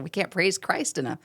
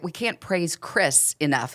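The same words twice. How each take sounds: First: "Christ" said as the hoped-for word, ending with a falling tone; stress on Christ. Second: "Chris" read slowly and clearly, like a dictionary example; stress on Chris. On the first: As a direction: hit "Christ" in "We can't praise Christ enough". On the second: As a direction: read "We can't praise Chris enough" slowly, dwelling on "Chris". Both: Shown as a demonstration. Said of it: "I thought they were gonna go with Christ".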